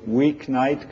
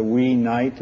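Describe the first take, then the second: First: Said in the usual way. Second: "wee night", no K closing the first word; split as two words. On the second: Shown as a demonstration. Lecturer quoting a bad break, "wee night" as two words. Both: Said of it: "coming out as a wee night".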